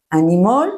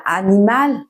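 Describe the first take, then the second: First: Animal said the English way, stress on the first syllable, ending in "mol"; English pronunciation. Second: Animal said the French way, ending in a clear "al"; French pronunciation. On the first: Teacher contrasting the English word for learners, English pronunciation. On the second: Teacher giving the French word to learners, French pronunciation. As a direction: say animal as a French word, last syllable stressed. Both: Shown as a demonstration. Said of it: "ça s'écrit pareil".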